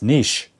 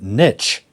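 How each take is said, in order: First: The vowel is long, like in quiche. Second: The vowel is short, like in pitch. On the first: The speaker calls it right. "It should be pronounced niche" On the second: The speaker calls it wrong. "probably in the U S, pronounce it niche, which to me sounds crazy"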